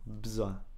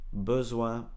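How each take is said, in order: First: The first vowel is dropped, said as one beat. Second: The first vowel is pronounced clearly, two full syllables. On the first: "on peut même supprimer le E ici" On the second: "d'abord prononcez bien correctement chaque mot"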